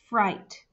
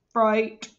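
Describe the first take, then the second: First: The word is said in a plain, normal voice. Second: The word is said in a flat, robotic voice. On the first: "I want you to say the word fright for me" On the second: "Now I want you to say it as a robot"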